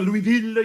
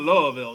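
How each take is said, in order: First: The name is said with a French pronunciation. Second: The name is said in a heavily shortened form. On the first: "the French one" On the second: "all the way down to"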